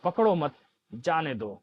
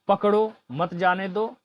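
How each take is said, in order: First: The pause comes right after मत. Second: The pause comes right after पकड़ो.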